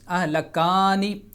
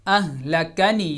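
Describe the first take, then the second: First: The vowel after the k is drawn out long. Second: The vowel after the k is kept short. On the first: The speaker calls it wrong. "ये गलत हो जाएगा" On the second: The speaker calls it right. "ज़बर ज़ेर और पेश को खींचा नहीं जाएगा"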